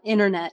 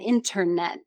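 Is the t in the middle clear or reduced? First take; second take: reduced; clear. First: The middle t is reduced or dropped. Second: The middle t is pronounced clearly. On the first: The speaker calls it wrong. "not internet" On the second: The speaker calls it right. "careful with my T's"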